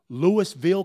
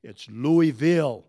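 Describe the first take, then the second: First: Louisville said "LOO-iss-vill", s sounded; mispronunciation. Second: Louisville said slowly as "LOO-ee-vill", silent s; corrected pronunciation. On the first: Shown as a demonstration. Asking the class about a wrong pronunciation, Louisville with an s. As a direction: sound the s in Louisville, questioning lift. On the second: Retold or imitated. Teacher correcting a pupil, deliberate Louisville without the s. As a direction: stretch out Louisville with no s. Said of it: "corrected me and said".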